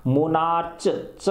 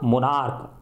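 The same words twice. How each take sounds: First: "मोनार्च" ending in a CH sound, as in "church"; wrong CH pronunciation. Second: "मोनार्क" ending in a hard K; hard K pronunciation. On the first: Teacher showing pupils the mistake to avoid, "मोनार्च" ending in CH. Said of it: "इसको मोनार्च नहीं बोलेंगे". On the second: Teacher correcting pupils on the butterfly's name, "मोनार्क" with final K. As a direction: say "मोनार्क" with क at the end, no CH. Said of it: "इसको क बोलते हैं". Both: Shown as a demonstration.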